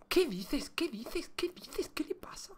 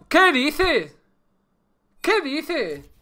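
First: Whispered disbelief, very soft; incredulous whisper. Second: High-pitched, drawn-out disbelief; incredulous exclamation. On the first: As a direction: repeat it under your breath, voiceless. Repeated disbelief fading into whisper. (susurro de incredulidad) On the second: Disbelief at failed game start. (exclamación aguda de incredulidad) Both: Real, not acted.

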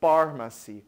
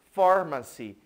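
First: Pharmacy said with a hard P at the start; the mistaken pharmacy, PH read as P; wrong pharmacy. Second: Pharmacy said with an F sound at the start; pharmacy pronounced far-ma-see, PH as F; correct pharmacy. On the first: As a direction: start pharmacy with a plosive P, like por. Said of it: "e não". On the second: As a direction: start pharmacy with a clear F, like farm. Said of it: "P H tem som de F". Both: Shown as a demonstration.

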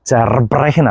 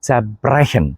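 First: ചെർബ്രഹൻ with a hard r after che; wrong prefix. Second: ചെബ്രഹൻ with the r dropped; German zerbrechen without hard r; correct prefix. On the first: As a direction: stress the r in ചെർബ്രഹൻ. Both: Shown as a demonstration. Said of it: "ചെർബ്രഹൻ അല്ല".

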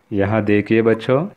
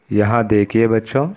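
No difference in how they are said.

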